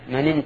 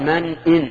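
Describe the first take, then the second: First: The glottal stop is dropped and the words run together. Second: The glottal stop before 'in' is clearly pronounced. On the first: The speaker calls it wrong. "جعل الهمزة همزة وصل" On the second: The speaker calls it right. "هنا يجب الإظهار لأن همزة همزة قطع"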